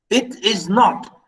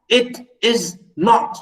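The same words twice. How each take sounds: First: Slow, stressed "not". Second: Slow, heavy "not" with an odd voice; capital not. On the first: Lecturer stressing not to students. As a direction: lean on "not", slowly. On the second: Lecturer acting out a capital not. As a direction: hammer "not" in a put-on voice. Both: Shown as a demonstration. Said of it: "Capital not".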